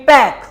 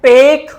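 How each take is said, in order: First: पैक with an open ae as in cat; the word पैक, mouth open wide on ae; contrast take, ae. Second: पेक with a closed e sound, set against the ae; the word पेक said with a plain e; contrast take, e. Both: Shown as a demonstration. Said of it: "difference क्या है?".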